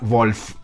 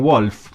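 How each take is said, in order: First: The name is said with German pronunciation. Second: The name is said with English pronunciation. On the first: "Con fe, así" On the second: "obvio con la pronunciación en inglés"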